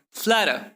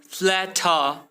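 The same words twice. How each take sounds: First: "flatter" joined as fladder. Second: "flatter" split as fla-TAH; slow "flatter" with a separate T; hard T. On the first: Teacher showing better flow, D sound in "flatter". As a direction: soften the T of "flatter" to D. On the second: Teacher showing what to avoid, hard T in "flatter". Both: Shown as a demonstration. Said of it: "replace T with D".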